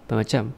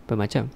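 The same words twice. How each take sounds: First: It is said fast, with the syllables slurred together. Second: The same.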